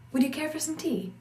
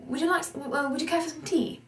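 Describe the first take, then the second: First: American vowels and consonants, pitched higher; American "Would you care for some tea?"; American accent. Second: Higher, quick, proper British "Would you care for some tea?"; British tea offer, a touch quick; British accent. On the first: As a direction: offer tea with plain American sounds. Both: Shown as a demonstration. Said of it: "In an American pronunciation".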